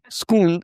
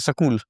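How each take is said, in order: First: It is said as one syllable, school. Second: It is said as two syllables, sakul. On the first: "instead of saying school" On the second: "This is a very uh, rustic way of speaking in, in uh, Bihar and U P"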